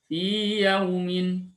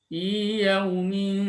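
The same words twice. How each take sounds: The two takes are said the same way.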